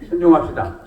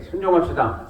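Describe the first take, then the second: First: It is said louder still. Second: It is said louder.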